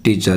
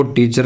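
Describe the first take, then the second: First: टीचर as "tee-chuh", no final R; corrected silent R. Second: टीचर ending in a clear R; wrong, R sounded. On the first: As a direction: leave the R off the end of टीचर. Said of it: "आर का उच्चारण नहीं होगा". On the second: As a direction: say टीचर as "tee-char". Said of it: "इसको टीचर नहीं बोलेंगे". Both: Shown as a demonstration.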